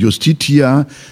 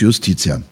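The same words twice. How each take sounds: First: It is pronounced the Classical Latin way. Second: It is pronounced the Church Latin way. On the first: "lateinisch ausgesprochen"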